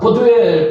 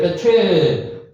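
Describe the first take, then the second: First: The name is said with a soft d sound. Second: The name is said with a t sound. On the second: "베투엘 발음을 이렇게 합니다"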